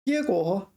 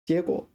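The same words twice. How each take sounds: First: The first syllable is in first tone. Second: The first syllable is not in first tone. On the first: It means to bear fruit. "first tone, third tone" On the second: It means results. "结果 are the results"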